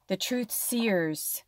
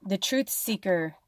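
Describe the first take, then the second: First: Truth seers drawn out slow and soft; slow emphasis. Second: Said in the usual way. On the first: Shown as a demonstration.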